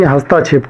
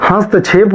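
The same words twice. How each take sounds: First: हस्ताक्षेप with a long aa inserted after t; the mistaken हस्ताक्षेप, hast-aa-kshep; wrong pronunciation. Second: हस्तक्षेप as hast-kshep, no vowel between t and ksh; correct pronunciation. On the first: Teacher rejects हस्ताक्षेप with its extra aa. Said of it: "ना कि हस्ताक्षेप". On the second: Teacher gives the correct हस्तक्षेप, no aa after t. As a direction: tight हस्तक्षेप with no extra aa. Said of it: "जबकि हस्तक्षेप होता है". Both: Shown as a demonstration.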